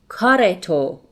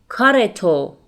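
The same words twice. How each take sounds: The two takes are said the same way.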